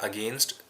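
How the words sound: The word is said on a flat pitch.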